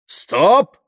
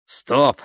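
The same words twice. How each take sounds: First: Loud, high, rising cry; shouted halt. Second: Higher, louder exclamation, short of shouting; sudden halt. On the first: Tamara stopping the threatening crowd, shouted halt. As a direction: cut the crowd off with one shout. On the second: Tamara seeing a curtain of rain ahead, sudden exclamation. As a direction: blurt it at a sudden obstacle. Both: A narrator's reading.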